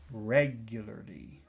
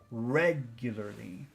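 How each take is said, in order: The two takes are said the same way.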